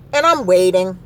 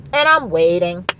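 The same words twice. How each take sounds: The two takes are said the same way.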